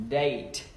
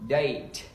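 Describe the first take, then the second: Both takes have the same delivery.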